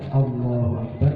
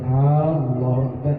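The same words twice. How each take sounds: First: The first vowel of Allah is short. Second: The first vowel of Allah is drawn out. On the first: God is great. The speaker calls it right. "Allah besar" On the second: It asks whether God is great. The speaker calls it wrong. "yang panjang itu berarti yang dipanjangkan"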